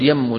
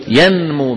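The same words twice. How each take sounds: First: يمو said yammu, with the n swallowed into a doubled m; merged n into m. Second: ينمو said yan-mu, with the n kept before the m; clear n before m. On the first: Teacher showing the wrong, merged form. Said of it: "لا يصح أن نقول". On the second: Teacher to students giving the correct form. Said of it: "لا بد أن نقول إيش". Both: Shown as a demonstration.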